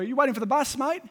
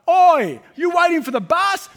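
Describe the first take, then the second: First: It is said at a normal, quieter volume. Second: It is said loudly, almost shouted.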